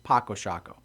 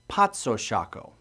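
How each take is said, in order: First: The first word has a k sound. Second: The first word has a ts sound. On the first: This is how most people now say it. "the common pronunciation now is just" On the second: This is how the original name is said. "The proper pronunciation is"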